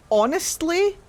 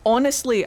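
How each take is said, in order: First: Honestly pitched much higher and rising at the end; drawn-out honestly. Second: Honestly louder and falling at the end; firm honestly. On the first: Rating the game out of ten, honestly rising high and hesitant. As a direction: stretch honestly upward as if hesitating. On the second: Rating the game out of ten, honestly falling and firm. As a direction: land honestly down decisively. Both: Acted.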